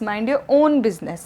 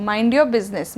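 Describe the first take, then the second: First: Mind your own business, own said slowly and leaned on; stress on own. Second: Said in the usual way. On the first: Shown as a demonstration. Teacher contrasting the two with stress on own. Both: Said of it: "तो वो भी own".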